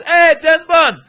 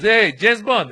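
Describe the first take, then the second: First: Very high, very loud whoop of recognition; delighted shout. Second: Loud, higher hail to a colleague; acted officer's excited shout-out; calling out. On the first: Retold or imitated. Second officer turning round to see traveler, delighted shout. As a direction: yell it like a starstruck fan. Acting colleague's bigger exclamation. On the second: Passport officer tapping his colleague to show him, calling out.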